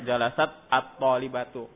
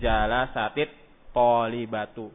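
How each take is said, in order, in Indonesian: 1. Huruf ta pada jalasat mati, tanpa vokal. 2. Huruf ta pada jalasat memakai vokal i. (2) "maka dikasrohkan taknya"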